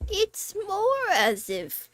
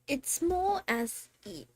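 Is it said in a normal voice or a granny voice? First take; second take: granny voice; normal voice. First: It is said in a put-on granny voice. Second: It is said in the speaker's normal voice.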